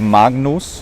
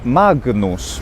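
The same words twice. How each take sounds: First: The g is not pronounced as a stop. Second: The g is pronounced as a stop. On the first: "Instead of" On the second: "the G is pronounced"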